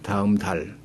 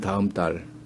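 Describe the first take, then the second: First: The second word starts with a plain consonant. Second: The second word starts with a tense consonant. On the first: This is the North Korean pronunciation. "예사 소리로 납니다" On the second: This is the South Korean pronunciation. "딸이 되죠"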